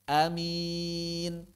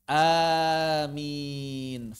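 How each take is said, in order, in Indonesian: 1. Vokal pertama adalah a pendek. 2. Vokal pertama adalah a panjang.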